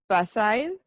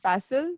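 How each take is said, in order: First: It is said with a British pronunciation. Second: It is said with an American pronunciation. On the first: "Britishers might pronounce it as facile" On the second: "Americans would pronounce it as facile"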